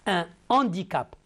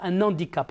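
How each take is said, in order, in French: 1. « Un » reste séparé de « handicap », sans liaison. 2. « Un » se lie à « handicap » avec un son de liaison en n. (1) "non, un handicap" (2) "et non pas un handicap"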